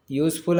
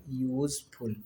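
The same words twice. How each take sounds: First: Said in the usual way. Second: यूज़फुल soft, with a drawn-out "yooz"; sound it out. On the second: Shown as a demonstration. Teacher answering how it is written, यूज़फुल softly drawn out. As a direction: stretch यूज़फुल quietly from its y sound. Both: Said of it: "यूज़फुल भी कैसे लिखेंगे?".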